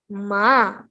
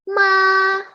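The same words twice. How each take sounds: First: The pitch dips and curves back up. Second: The pitch stays level and flat. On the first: "Untuk nada ketiga" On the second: "Itu untuk nada pertama"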